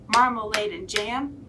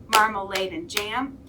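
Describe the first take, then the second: No difference in how they are said.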